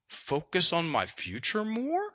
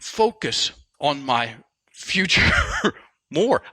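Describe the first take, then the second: First: The pitch rises at the end. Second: The pitch falls at the end. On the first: The speaker sounds unsure, like asking a question. The speaker calls it wrong. "it was a half sentence and it went up at the end, up talk" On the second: The speaker states it as a firm intention. The speaker calls it right. "Now say it as a full sentence"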